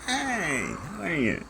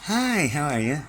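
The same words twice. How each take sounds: First: Very high mock-friendly hello after a reset; fake sweet greeting. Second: Much higher, louder mock-cheery hello; fake sweet greeting. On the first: Resetting himself with a falsetto mock-polite hello. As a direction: start over with a sugary put-on greeting. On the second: Hiding evil thoughts behind a mock-polite hello, high. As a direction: cover evil thoughts with a bright put-on greeting.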